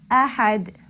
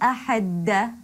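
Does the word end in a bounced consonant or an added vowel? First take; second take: bounced consonant; added vowel. First: It ends on a bounced d with no vowel. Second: It ends with an added a vowel after d. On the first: The speaker calls it right. "that added stress is the quality of qalqala" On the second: The speaker calls it wrong. "I don't say ahadda"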